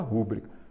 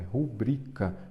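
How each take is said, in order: First: The stress is on the first syllable. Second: The stress is on the second syllable. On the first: The speaker calls it wrong. "Muita gente fala rúbrica" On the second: The speaker calls it right. "porque a sílaba forte é o bri"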